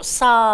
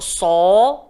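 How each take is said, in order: First: The letter is sounded thin, with an open vowel. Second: The letter is sounded thick, with a rounded vowel. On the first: The speaker calls it wrong. "tak boleh sebut sa" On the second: The speaker calls it right. "kena gemuk"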